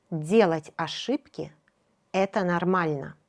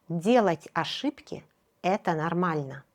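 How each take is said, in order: Both takes have the same delivery.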